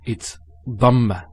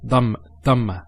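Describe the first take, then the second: First: Dhamma with the emphatic dad, slower; correct dhamma. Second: Dhamma with a hard d instead of the dad; wrong d sound. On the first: Teacher models correct emphatic dad in dhamma, slower. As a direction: give the proper emphatic sound. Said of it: "It's not dhamma". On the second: Teacher imitates learners' wrong d in dhamma, hard d. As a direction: show the common mistake with a plain d. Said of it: "They say it with a dal". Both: Shown as a demonstration.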